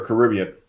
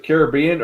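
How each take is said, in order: First: Caribbean said the other common way; alternate pronunciation. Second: Caribbean said one of its two common ways; alternate pronunciation. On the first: Asking listeners how to say it, second pronunciation of Caribbean. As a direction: give the contrasting version of Caribbean. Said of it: "Do you pronounce it Caribbean or Caribbean". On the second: Asking listeners how to say it, first pronunciation of Caribbean. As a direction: give one version of Caribbean for comparison. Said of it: "how do you pronounce that". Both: Shown as a demonstration.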